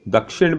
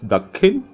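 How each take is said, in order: First: The middle consonant cluster sounds like 'ksh'. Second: The middle consonant cluster sounds like 'kh'. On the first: "Dakshin becomes Dakhin" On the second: "Dakshin becomes Dakhin"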